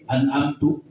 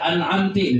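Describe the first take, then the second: First: The word ends with a u vowel. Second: The word ends with an i vowel. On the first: I gave the favour. "lu bahaya, saya yang memberikan nikmat" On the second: You, a woman, gave the favour. "lebih bahaya lagi, kamu perempuan yang memberikan nikmat"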